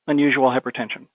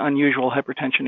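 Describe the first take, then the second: First: It has a pause before and after it. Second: It flows on without pauses around it. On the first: It is a voice command. "I had a pause at the beginning and end" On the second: It is ordinary dictated text. "when I use them in a sentence"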